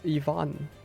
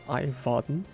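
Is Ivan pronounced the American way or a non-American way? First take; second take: non-American; American. First: The name has a non-American pronunciation. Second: The name has the American pronunciation. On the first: The speaker calls it right. "it's Ivan" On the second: The speaker calls it wrong. "for all of you Americans out there, yes, that's how you read it"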